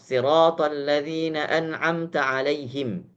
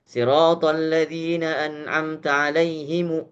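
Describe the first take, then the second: First: The last word ends on a bare m. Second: The last word ends with a vowel after m. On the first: The speaker calls it right. "yang benar ... Boleh hanya disukunkan saja" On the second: The speaker calls it wrong.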